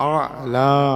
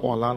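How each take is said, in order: First: The word begins with an 'a' vowel. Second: The word begins with an 'o' vowel. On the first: The speaker calls it right. "সল্লি আলা, আলা" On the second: The speaker calls it wrong. "সল্লি অলা নয়"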